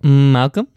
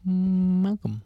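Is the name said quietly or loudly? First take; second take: loudly; quietly. First: The name is said loudly. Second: The name is said quietly.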